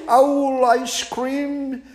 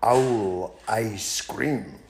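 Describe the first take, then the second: First: Very high, slow, horrified owl echo; the owl echoing in high alarm. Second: The mouse slowly spelling out the owl's doom; slow punchline. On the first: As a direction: hoot it back in shocked disbelief. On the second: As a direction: land the threat slowly for effect. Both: Acted.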